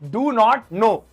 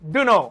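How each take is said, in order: First: All three words are said in full. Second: The words are blended, the t sound dropped.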